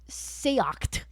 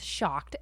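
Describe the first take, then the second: First: It is said like a foreign, Hebrew-sounding term. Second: It is said like the English word shocked. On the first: The speaker calls it wrong. "I was saying seocht, like as though it was like some kind of like Hebrew term" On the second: The speaker calls it right. "But apparently it's shocked"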